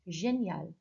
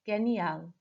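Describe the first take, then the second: First: The g is soft, like the s in measure. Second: The g is hard, like the g in go. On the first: The speaker calls it right. "This time it will be correct" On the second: The speaker calls it wrong. "I obviously mispronounced the, the G there"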